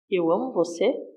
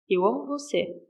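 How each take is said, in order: First: It ends rising, as a question. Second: It ends falling, as a tender statement.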